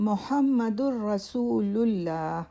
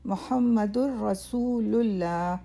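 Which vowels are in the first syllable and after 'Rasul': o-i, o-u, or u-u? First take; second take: u-u; u-u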